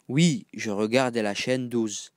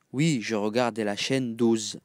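Both takes have the same delivery.

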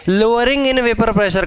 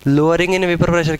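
First: "Lowering in vapor pressure" drawn out slowly and pitched up; stress on the words. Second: Said in the usual way. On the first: Shown as a demonstration. Teacher pointing students to the wording, "Lowering in vapor pressure" slowly emphasised. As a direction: stretch out "Lowering in vapor pressure" so each word counts. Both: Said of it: "words पर जाओ ना".

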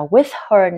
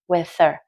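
First: "with her" with the h sounded clearly; "with her", strong h on "her"; full h. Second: "with her" blended into "with-er"; "with her" lightly, h silent; dropped h. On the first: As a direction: say "with her" as two full words. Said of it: "không phải đọc là". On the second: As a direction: run "with her" together, no h. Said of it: "bỏ được là with her". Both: Shown as a demonstration.

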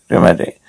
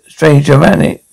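First: Dramatic breathed out, no voice at all; hushed whispered correction; whispered aside. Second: Said in the usual way. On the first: Acted. Repeats the word under breath.

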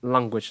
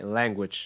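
First: Language with an open "ah" in the first syllable; wrong first vowel. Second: Language with a flat "ae" in the first syllable; correct E-like vowel. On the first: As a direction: say Language like "lahn-gwidge". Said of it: "Language là sai". (Language, đọc sai âm đầu thành "lang") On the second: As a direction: open language on "laeng", as in cat. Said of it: "E, e". (language, âm đầu đọc bẹt thành "e") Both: Shown as a demonstration.

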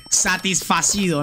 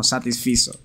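First: "Satisfacido" said slowly as the mistaken past tense, sa-tis-fa-ci-do; correcting the chat, slow wrong "Satisfacido"; wrong form. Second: "satisfizo" said as the correct past tense, falling and settled; correcting the chat, firm right "satisfizo"; right form. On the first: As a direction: drawl out "Satisfacido" to show the error. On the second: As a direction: land on "satisfizo" as the correct answer. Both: Shown as a demonstration. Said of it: "satisfacido no".

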